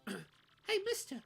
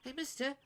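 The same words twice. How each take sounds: First: It is said in a natural, ordinary voice. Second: It is said in a put-on character voice. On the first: The speaker calls it wrong. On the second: The speaker calls it right.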